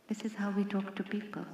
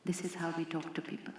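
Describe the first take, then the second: First: Soft unvoiced whisper. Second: Said in the usual way. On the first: Shown as a demonstration. Speaker repeats the line to the audience in a whisper. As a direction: breathe it as a hushed aside. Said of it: "said first aloud, then again". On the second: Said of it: "repeats it in a whisper".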